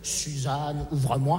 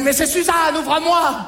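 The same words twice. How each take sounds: First: Plus grave, beaucoup plus doux; répéter la formule magique à voix basse; répétition marmonnée. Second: Beaucoup plus aigu, appelé fort; l'extraterrestre déguisé en mère appelle; mère qui appelle. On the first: (marmonné tout bas) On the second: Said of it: "il m'a dit". (appel aigu de mère imitée) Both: Acted.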